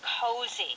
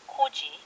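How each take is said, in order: First: The middle consonant is a Z sound. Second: The middle consonant is a J sound. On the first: The speaker calls it right. "it's a Z sound" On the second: The speaker calls it wrong. "we do hear this word in Korean"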